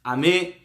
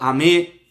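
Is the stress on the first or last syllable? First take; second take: last; last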